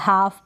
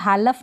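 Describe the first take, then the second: First: The L sound is silent before the F. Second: The L sound is pronounced before the F. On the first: The speaker calls it right. "हाफ पढ़ेंगे" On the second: The speaker calls it wrong. "अब इसको भी हालफ नहीं पढ़ेंगे"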